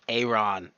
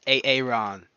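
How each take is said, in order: First: The first vowel is short and single. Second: The first vowel is doubled and drawn out. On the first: The speaker calls it wrong. "It's not Aaron" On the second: The speaker calls it right. "it's A-Aaron"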